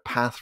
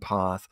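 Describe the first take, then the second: First: It is said with a northern English vowel. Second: It is said with a southern English vowel.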